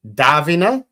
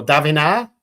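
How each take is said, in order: First: "Davina" with an A as in cat, questioning rise; testing the name. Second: "Davina" said tuh-VEE-na, questioning rise; other option for the name. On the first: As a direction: try "Davina" with a flat A as in cat. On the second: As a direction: offer "Davina" with a short weak first syllable. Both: Shown as a demonstration. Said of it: "It's a A as in cat".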